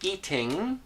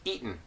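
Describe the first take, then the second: First: The word ends with a full 'ng' sound. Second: The word ends with a plain 'n' sound. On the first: "instead of saying eating" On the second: "I would pronounce this as eaten"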